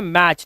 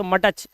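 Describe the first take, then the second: First: मैच as one beat ending in CH; silent T. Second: मटच in two beats, T voiced before the CH; sounded T. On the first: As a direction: say मैच with no separate T. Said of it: "इसे बोलते हैं". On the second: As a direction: split मटच so the T is heard. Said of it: "कभी भी मटच नहीं पढ़ते". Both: Shown as a demonstration.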